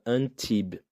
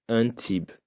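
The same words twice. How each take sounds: No difference in how they are said.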